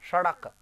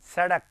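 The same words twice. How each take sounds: First: The s is made further back, not at teeth. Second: The s is made with the teeth touching. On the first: The speaker calls it wrong. "हम कैसे बोलते, सड़क, गलत है ये" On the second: The speaker calls it right. "इसको बोलेंगे ना सड़क"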